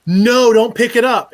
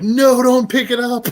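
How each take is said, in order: First: Loud, high, drawn-out yell of no; yelled warning. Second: High, loud, stretched shout of no; re-enacted yell. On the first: Retold or imitated. To the cook reaching for the bottle, a loud yell. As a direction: shout to stop him grabbing it. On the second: Retelling to the hosts how he yelled at the cook. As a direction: yell it like the whole kitchen hears. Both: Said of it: "they heard me yell".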